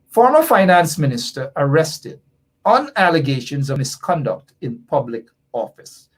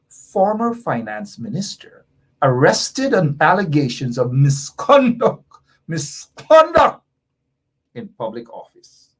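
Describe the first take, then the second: First: It is read at a normal, quicker pace. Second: It is read slowly and deliberately.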